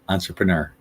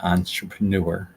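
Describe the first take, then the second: First: The final syllable sounds like ner. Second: The final syllable sounds like newer. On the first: The speaker calls it right. "It's not newer, it's ner" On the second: The speaker calls it wrong. "Not entrepreneur. It's not newer"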